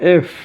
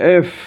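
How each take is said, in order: Both takes have the same delivery.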